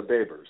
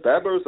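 First: "Babers" opening like the word "bay"; long-vowel pronunciation. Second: "Babers" with a short first syllable, like "Bebbers"; short-vowel pronunciation. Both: Shown as a demonstration. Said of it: "is it Babers or Babers?".

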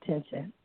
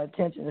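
First: "tension" for attention, first syllable dropped; dialect pronunciation. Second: Said in the usual way. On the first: Shown as a demonstration. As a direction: clip "tension" short, the dialect way, no at-. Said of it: "I'm speaking in dialect". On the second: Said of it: "That's the name of it, but it's not attention".

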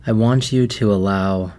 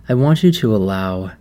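No difference in how they are said.

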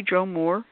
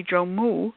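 First: Joe Moore with the final R clearly sounded; "Moore" ending on a clear R; R pronounced. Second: "Moo" said with no R at the end, just moo; Southern dropped-R "Moo". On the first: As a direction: say "Joe Moore" with a full R at the end, Moore. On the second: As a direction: drop the R so "Joe Moo" ends on an open oo. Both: Shown as a demonstration. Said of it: "is that a dropped R?".

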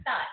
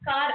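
First: "tar" said for car, t replacing k; child's articulation error, "tar" with a front t; sound substitution. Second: Said in the usual way. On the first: Shown as a demonstration. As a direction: swap the opening k for a t: "tar". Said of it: "some substitution of words". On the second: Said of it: "For example".

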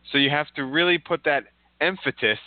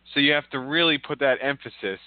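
First: "emphasis" with a T, as em-fa-tis; swimmer's mispronunciation. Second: Said in the usual way. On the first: Retold or imitated. Cohost quoting how the swimmer said it, "emphasis" as emphatis. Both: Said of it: "This is how he said it".

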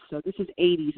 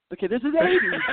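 First: Said in the usual way. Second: "eighties" pushed up high and louder with a rising end; emphatic rising repeat. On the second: Shown as a demonstration. Repeating for the host, stressing "eighties" high and rising. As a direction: lean on "eighties" and lift it like a question. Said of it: "this is eighties, all right?".

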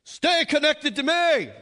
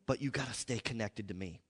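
First: Much higher, much louder, slow stern bark; a whip-cracking religious Jesus laying down the law; mock stern judge roaring a command; harsh condemning Jesus. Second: Loving voice of God. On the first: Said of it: "seeing Jesus with a whip". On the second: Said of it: "that dead religion running through your mind". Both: Shown as a demonstration.

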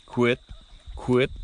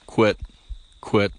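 First: Short quit sounds like a duck; duck quit call. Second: Short clipped quit like a duck; duck quit call. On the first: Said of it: "So it's just". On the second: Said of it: "Saying quit". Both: Shown as a demonstration.

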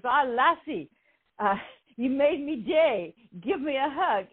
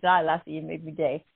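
First: Lightly imitated Scottish burr, higher; a playful hint of a Scottish security guard; mock Scottish brogue, pitched up; Scottish accent. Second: Said in the usual way. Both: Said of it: "he's Scottish".

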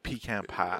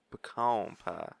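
First: "pecan" said PEE-can, long ee first. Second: "pecan" said puh-KAWN, stress on the second syllable. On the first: Friend offering a Southern word to say, "pecan" as PEE-can. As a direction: say "pecan" with a clear PEE at the start. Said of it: "don't even know how to pronounce it". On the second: Showing off his country drawl, "pecan" as puh-KAWN. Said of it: "how to pronounce it correctly". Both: Shown as a demonstration.

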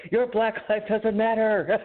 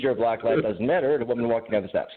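First: Slow, high-pitched mock yell; mock scream. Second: Said in the usual way. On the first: Man imagining screaming at his nice neighbor, hammed-up mock scream. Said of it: "I just screamed at her". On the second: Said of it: "it's like, "Florida man screams".

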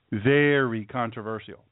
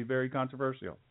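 First: VERY stretched out slowly; drawn-out emphasis. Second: Said in the usual way. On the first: Retold or imitated. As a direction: slowly draw out VERY CONTROVERSIAL for weight.

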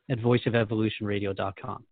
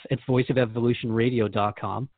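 Both takes have the same delivery.

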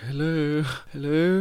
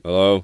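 First: High, sing-out mock hello; retold high-pitched greeting call; tentative calling out. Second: Lightly imitated stranger's reply, louder; retold answering hello at ordinary pitch. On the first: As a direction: imitate calling into a stranger's house, much higher. Calling out on arrival at a house. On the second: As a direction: give a short, louder hello back, lightly acted. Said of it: "this voice was just like".

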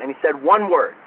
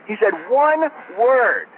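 First: Said in the usual way. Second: One stretched out slowly and higher; slow down and lean hard on one; slow emphatic repeat. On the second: Shown as a demonstration.

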